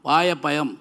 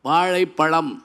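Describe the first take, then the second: First: The word uses a y sound instead. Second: The word uses the retroflex zh sound. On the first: The speaker calls it wrong. "அவன் வாயப்பயம் அப்படின்னு இருக்கான்" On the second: The speaker calls it right. "ஒரு வாத்தியார் சொல்லி கொடுத்தார். வாழைப்பழம்"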